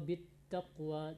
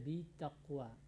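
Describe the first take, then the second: First: The t sound is held doubled. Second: The t sound is single and short. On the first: The speaker calls it right. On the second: The speaker calls it wrong.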